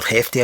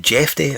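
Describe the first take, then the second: First: Hefty with an H sound; alternative pronunciation. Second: Jefty with a J sound; alternative pronunciation. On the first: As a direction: start Hefty on a breathed "h". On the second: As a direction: start Jefty on "j" as in jet. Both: Shown as a demonstration. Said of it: "all the different pronunciations".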